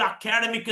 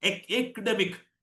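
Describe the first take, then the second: First: അക്കാഡമിക് with long middle "kaa"; local-style അക്കാഡമിക്, opening on "a"; full vowels in അക്കാഡമിക്; common mispronunciation. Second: Slow എക്ഡമിക്, opening on "aek"; എക്ഡമിക് with squeezed middle syllable; correct English pronunciation. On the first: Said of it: "എന്ന് പറയും". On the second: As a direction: model "aek-demik" for എക്ഡമിക്. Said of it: "നമ്മൾ അക്കാഡമിക് എന്ന് പറയും". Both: Shown as a demonstration.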